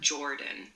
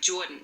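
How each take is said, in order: First: The R sound is clearly pronounced. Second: The R sound is dropped, Brooklyn style. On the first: "not Jordan" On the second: "She doesn't even do an R"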